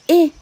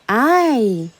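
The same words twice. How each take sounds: First: The letter is said with its short vowel sound. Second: The letter is said with its long vowel sound. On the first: "That's the short I vowel sound" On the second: "That's the long vowel sound"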